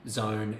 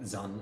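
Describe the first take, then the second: First: The vowel sounds like the one in 'own'. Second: The vowel sounds like the one in 'un'. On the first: This is how the word is said today. "don't rhyme today" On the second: This is how the word was probably said long ago. "at the time of writing, they were probably pronounced like zun"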